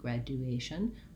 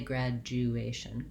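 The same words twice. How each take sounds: First: The middle is said as D plus you. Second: The middle is said as a J sound. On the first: "they may say more like graduation, graduation, with a D and a U" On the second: "and we say graduation"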